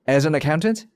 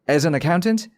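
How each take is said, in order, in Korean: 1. 'as'를 강조하지 않아서 이 구절은 빠르게 읽힙니다. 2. 'as'를 강조하지 않아서 이 구절은 빠르게 읽힙니다.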